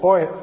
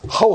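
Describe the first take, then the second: First: The word begins with a bare vowel sound. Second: The word begins with an h sound.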